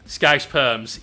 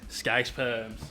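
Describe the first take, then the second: First: Scouse perms! loud and gleeful; loud exclamation. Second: Softer, under the breath; quiet repeat. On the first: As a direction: call it out, louder, with relish. Loud exclamation of a chat item. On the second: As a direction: let "Scouse perms" drop softly, almost to yourself. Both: Real, not acted.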